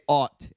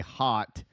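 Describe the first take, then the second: First: The word starts without an h sound. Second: The word starts with a clear h sound. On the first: "You guys say ought" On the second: "You don't say hot"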